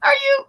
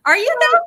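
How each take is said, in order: First: Mock skeptical echo. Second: High, doubting rise on though; skeptical side eye. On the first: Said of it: "Are you?" echoing". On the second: Retold or imitated. To a traveler bragging about a trip, a high skeptical are you though. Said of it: "Then I'd be like".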